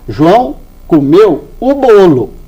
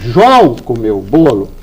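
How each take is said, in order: First: The stress falls on bolo. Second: The stress falls on João.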